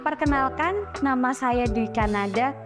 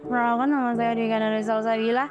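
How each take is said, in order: First: Each vowel and syllable is pronounced crisply and distinctly. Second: The words are lazily slurred and run together. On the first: The listeners easily grasp what is meant. The speaker calls it right. "pastikan kalian berbicara dengan jelas" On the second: The listeners lose interest and wonder what is meant. The speaker calls it wrong. "Jangan sampai kalian berbicara terkesan malas atau terkesan menyeret"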